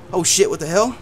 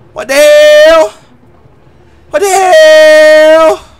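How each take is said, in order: First: A low, soft what the hell; half under the breath, caught off guard; muttered surprise. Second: Long, slow, loud what the hell; drawn-out disbelief. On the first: Streamer caught off guard by the cutscene, muttering. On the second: Streamer stunned by the cutscene, slow loud disbelief. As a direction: stretch it out in awe. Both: Real, not acted.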